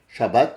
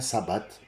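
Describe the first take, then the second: First: The word begins with a sh sound. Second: The word begins with a plain s sound. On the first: "c'est nos amis qui disent Shabbat" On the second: "ça se prononce comme ça, sabbat, non pas chat"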